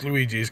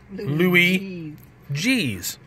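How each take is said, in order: First: The name is said quickly, run together. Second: The name is said as two separate words. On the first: "we say it fast enough, so it's Luigi's" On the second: "Or Louis G's"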